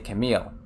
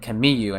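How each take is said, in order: First: The name is said with an English pronunciation. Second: The name is said with a Japanese pronunciation. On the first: "I say Camille in English" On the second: "and Camille in Japanese"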